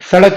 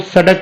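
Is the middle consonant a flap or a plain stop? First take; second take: flap; plain stop. First: The middle consonant is a retroflex flap. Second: The middle consonant is a plain retroflex stop. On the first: The speaker calls it right. "सड़क बोलना पड़ेगा" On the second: The speaker calls it wrong. "सड़क बोलेंगे तो गलत है वो"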